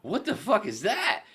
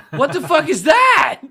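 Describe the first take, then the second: First: High, slow, laughing disbelief; baffled disbelief. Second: Very high, drawn-out screamed disbelief; outraged scream. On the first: Retelling his reaction to the puppy promo, incredulous. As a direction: act out a stunned reaction, pitched way up. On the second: Retelling his reaction to the DJ's promo, screaming. Louder second retold shocked reaction. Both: Retold or imitated.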